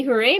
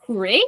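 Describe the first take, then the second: First: Unsure hooray. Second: Hooray? with a questioning rise at the end. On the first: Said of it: "Maybe hooray maybe not". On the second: Teacher testing a question mark on Hooray, rising. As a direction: ask Hooray as if unsure. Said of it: "put a question mark". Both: Shown as a demonstration.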